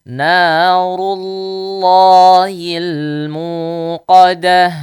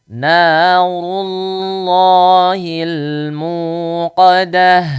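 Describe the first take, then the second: No difference in how they are said.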